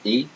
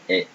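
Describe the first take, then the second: First: "E" said as tense "ay", no glide; "E" as closed é; closed French E. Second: "E" said as "eh"; "E" as open è, like "bet"; open French E. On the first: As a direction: model "E" as French é. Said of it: "if it's like this". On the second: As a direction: model "E" as French è. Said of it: "And this one". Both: Shown as a demonstration.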